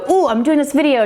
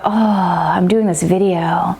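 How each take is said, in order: First: It sounds tense and keyed up. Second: It sounds calm and relaxed.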